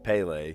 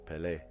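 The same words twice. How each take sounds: First: The name is said with English-style pronunciation. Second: The name is said with Brazilian Portuguese pronunciation. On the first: The speaker calls it wrong. "They don't say Pele" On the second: The speaker calls it right. "They say Pele"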